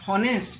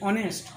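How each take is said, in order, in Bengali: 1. শব্দটি স্পষ্ট 'h' ধ্বনি দিয়ে শুরু হয়। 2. শব্দটি সরাসরি একটি স্বরধ্বনি দিয়ে শুরু হয়। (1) "কিন্তু আমরা হনেস্ট বলি না" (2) "আমরা উচ্চারণটা করি ও থেকে"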